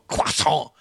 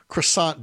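First: Croissant is pronounced with an exaggerated French-style sound. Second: Croissant is pronounced the plain English way.

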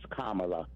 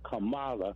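First: The name is said to rhyme with Pamela. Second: The name is said not rhyming with Pamela. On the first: The speaker calls it right. "Just like Pamela" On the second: The speaker calls it wrong. "some of these Republicans are saying Kamala"

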